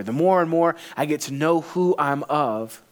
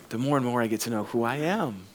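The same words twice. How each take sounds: First: "of" held as the key word; stress on OF. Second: Softer, lower line landing on "am"; stress on AM. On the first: Pastor contrasting whose he is, stress on "of". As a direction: lean on "of" at the end of the line. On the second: Pastor turning to who he is, stress on "am". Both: Shown as a demonstration.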